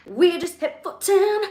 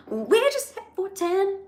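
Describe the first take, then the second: First: Rising excitement, higher. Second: Much higher, breathless disbelief; excited squeal. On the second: Host thrilled by record live viewers, squealing. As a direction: squeal it higher each time. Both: Real, not acted. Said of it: "I don't even know what to do".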